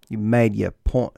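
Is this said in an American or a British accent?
British. It is said in a put-on British accent.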